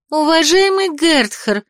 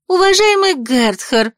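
First: High, slow calling out to him; ringing girlish call. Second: Higher, slower insistent call; ringing girlish call. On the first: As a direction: call after him in a bright girl's voice. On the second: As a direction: call again, rising at the end. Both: A narrator's reading. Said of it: "звенящий девичий голос".

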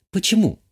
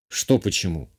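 First: Higher-pitched woman's voice for the countess; a high, quick-falling "why"; questioning countess. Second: Low-pitched, puzzled counter-question. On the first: Countess challenges the man over his marriage proposal, questioning. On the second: Man answers the countess's question, not understanding, puzzled. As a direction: drop low, not following her. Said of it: "Не понял я". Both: A narrator's reading.

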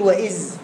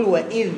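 First: وإذ ending in a buzzed z instead of dhal; forbidden zay ending. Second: Tongue between the teeth on the ذ of وإذ; tongue-out dhal. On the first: Retold or imitated. Teacher quoting what must not be said, zay ending. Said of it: "ما ينفعش تقول". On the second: Shown as a demonstration. Teacher telling student to put tongue out, clear dhal. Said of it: "طلع لسانك الأولاني".

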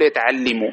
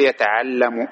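First: يتعلم with an "i" before the final m: yata'allimu; wrong vowel. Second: يتعلم drawn out slowly with an "a": yata'allamu; corrected vowel. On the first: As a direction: say يتعلم as yata-'al-LI-mu, kasra on the lam. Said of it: "لا نقول يتعلم". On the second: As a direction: say يتعلم as yata-'al-LA-mu, fatha on the lam. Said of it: "لا، نقول يتعلم". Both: Shown as a demonstration.

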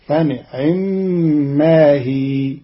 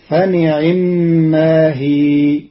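First: فنعما with the i after ayn barely touched; slow, drawn-out فنعما, but its ayn vowel only fleeting; snatched kasra on ayn. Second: Said in the usual way. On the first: Shown as a demonstration. Teacher shows Qalun's reading, فنعما with snatched kasra. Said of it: "فتكون الكسرة مختلسة، فتصير هكذا". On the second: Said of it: "بإخفاء كسر العين".

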